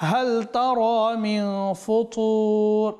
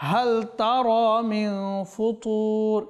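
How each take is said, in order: No difference in how they are said.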